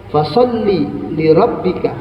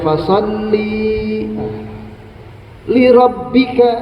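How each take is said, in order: First: The vowel in fasalli is kept short. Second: The vowel in fasalli is drawn out long. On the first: The speaker calls it right. "jangan dibaca panjang" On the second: The speaker calls it wrong. "Enggak dibaca"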